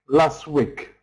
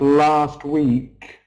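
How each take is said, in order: First: The vowels in both words are short. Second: The vowels in both words are long. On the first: The speaker calls it wrong. "My students in Poland don't pronounce long vowels" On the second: The speaker calls it right. "instead of"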